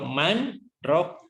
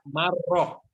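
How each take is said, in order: First: A brief stop separates man from the next word. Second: The n merges into the r without stopping. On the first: It asks who can heal. The speaker calls it right. "Tetapi saktah" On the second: It means a maker of broth. The speaker calls it wrong. "Tidak boleh dibaca marrok ya"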